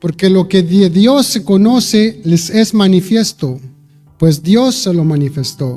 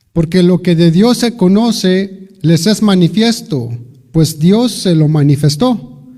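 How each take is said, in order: Both takes have the same delivery.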